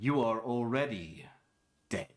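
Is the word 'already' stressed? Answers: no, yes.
no. The word 'already' is not stressed. The speaker calls it right. "it's funny when you read it like"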